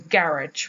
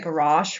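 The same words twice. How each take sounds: First: It is said with a British pronunciation. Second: It is said with an American pronunciation.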